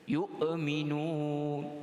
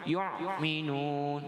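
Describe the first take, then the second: First: A breathy h sound follows 'yu'. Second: A throaty ain sound follows 'yu'. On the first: "hamzah itu jadi ha ... itu pun kesalahan juga" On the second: "yang pertama ain ... jadi huruf ain"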